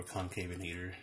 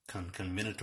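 First: Concavenator said kon-KAY-vuh-nay-ter; usual pronunciation. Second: Conconvenator with a repeated "con-con"; alternative pronunciation. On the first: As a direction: say Concavenator with "kay" as its second syllable. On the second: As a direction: say Conconvenator as "con-con-venator", no "kay" sound. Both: Shown as a demonstration. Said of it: "however we wanna pronounce it".

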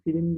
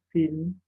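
First: "film" in two syllables, filim; an i slipped between l and m in "film"; misspelt form. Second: Said in the usual way. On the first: Shown as a demonstration. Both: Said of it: "film değil".

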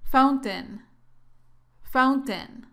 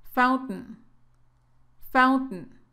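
First: "fountain" said "faun-ten" with both syllables clear; "fountain" fully articulated, "faun-ten"; full final syllable. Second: "fountain" as "fount'n", glottal stop and no final vowel; "fountain" with a glottal t, final syllable swallowed. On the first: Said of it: "también puedes pronunciarla así". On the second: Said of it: "La más común es pronunciarla así". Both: Shown as a demonstration.

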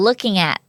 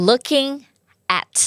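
First: "Looking at" run together as one word; linked words. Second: LOOKING, pause, AT; separated words. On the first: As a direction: glide from Looking straight into at. (เชื่อมเสียง Looking at ติดกัน) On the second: (แยกคำ Looking กับ at เว้นจังหวะ) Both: Shown as a demonstration. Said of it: "สามารถเชื่อมเสียงได้เหมือนกัน".

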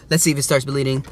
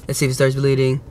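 Both takes have the same delivery.

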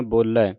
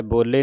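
First: ਬੋਲੇ with an open final "ai"; correct open ending. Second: ਬੋਲੇ with a closed final "ay"; wrong ending demo. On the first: Teacher showing the right reading, ਬੋਲੇ ending in open "ai". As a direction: say ਬੋਲੇ as "bo-leh", open vowel. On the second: Teacher showing what not to read, ਬੋਲੇ ending "ay". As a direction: say ਬੋਲੇ as "bo-lay". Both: Shown as a demonstration. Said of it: "ਬੋਲੇ ਨਹੀਂ ਪੜ੍ਹਨਾ".

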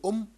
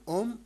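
First: "أم" again with a faint, unclosed ميم; light m. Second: "أم" with the ميم barely closed; light m. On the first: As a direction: let the ميم of "أم" fade to nothing. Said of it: "ولكن لا أنطق الميم". ("أم" والميم خفيفة لا تظهر) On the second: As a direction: say "أم" without fully sounding the ميم. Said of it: "وكأنني أقول أم، ولكن لا أنطق الميم". ("أم" بميم خفيفة لا تظهر) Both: Shown as a demonstration.

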